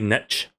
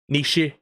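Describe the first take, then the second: First: The word is said like 'nitch'. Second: The word is not said like 'nitch'. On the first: "that's more like N I T C H" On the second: "I thought it was niche because it had E at the end"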